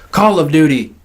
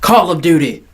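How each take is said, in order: Both takes have the same delivery.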